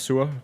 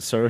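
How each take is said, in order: First: It is said with a Danish pronunciation. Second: It is said with an English pronunciation. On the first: It means sour. "in Danish it's pronounced sur" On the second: It sounds like a royal title. "you pronounce it sir"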